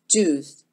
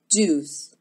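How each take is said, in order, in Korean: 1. 영어식으로 발음돼요. 입술을 동그랗게 오므려요. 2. 영어식으로 발음돼요. 입술을 동그랗게 오므려요.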